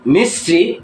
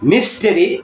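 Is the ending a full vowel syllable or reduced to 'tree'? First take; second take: reduced; full vowel. First: The ending is reduced to a single 'tree'. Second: The ending keeps a full vowel before 'ree'. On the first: The speaker calls it right. "উচ্চারণটা হবে ট্রি" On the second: The speaker calls it wrong. "টরি, টেরি কিংবা টারি না"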